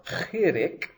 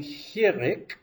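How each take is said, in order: First: CHIRIK begun with a throat-scraped kh; guttural ch variant. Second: HIRIK begun with a plain breathed h; soft h variant. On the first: Teacher offering the other name, CHIRIK with guttural ch. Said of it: "in the name hirik". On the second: Teacher giving learners the name, HIRIK with plain h. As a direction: say HIRIK with an English h. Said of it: "or chirik". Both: Shown as a demonstration.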